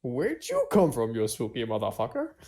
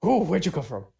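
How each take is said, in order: First: Brash challenge. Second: Startled, quick blurted question; spooked. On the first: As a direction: stretch the question out with swagger. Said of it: "no, I, I would be very spooked". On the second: Player startled by the creature behind them, acting spooked. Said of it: "I would be very spooked". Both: Acted.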